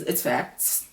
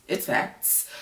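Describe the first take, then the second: First: Said in the usual way. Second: Whispered, softer aside. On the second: Real, not acted. Agreeing that Amy is out of his league, whispered. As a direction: breathe "It's facts" as a whispered aside.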